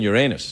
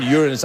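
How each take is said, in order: First: Uranus as yer-AY-nus; corrected pronunciation. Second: Uranus as YOOR-uh-nus; stress on first syllable. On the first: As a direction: say Uranus with a long AY in the middle. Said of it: "I was saying Uranus". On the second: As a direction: say Uranus with the weight up front and a weak middle. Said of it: "I wasn't saying Uranus". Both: Shown as a demonstration.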